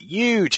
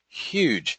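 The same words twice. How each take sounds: First: The word starts without an H sound. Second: The word starts with an H sound.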